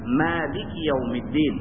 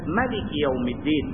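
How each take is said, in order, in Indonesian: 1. Vokal pertama, 'ma', dibaca panjang. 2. Vokal pertama, 'ma', dibaca pendek. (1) "dengan panjang bacaan Ma" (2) "dengan pendek mi"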